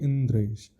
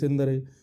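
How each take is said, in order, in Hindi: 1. 'ndr' एक कसे हुए संयुक्त व्यंजन की तरह बोला जाता है। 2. अतिरिक्त स्वर 'nd' और 'r' को अलग कर देता है। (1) "उसका शुद्ध प्रोनाउंसिएशन होना चाहिए" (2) "अरे यार ठीक से बोलो ना"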